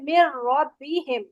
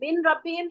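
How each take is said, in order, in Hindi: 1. n, एक दोहरे r की आवाज़ में मिल जाता है। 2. r से पहले 'n' की आवाज़ बोली जाती है। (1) "नून नहीं पढ़ा जाता" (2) "मिन रब्बिहिम तो नहीं पढ़ेंगे"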